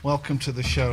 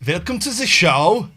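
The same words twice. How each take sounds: First: It is said in a plain, natural voice. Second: It is said in a put-on presenter voice.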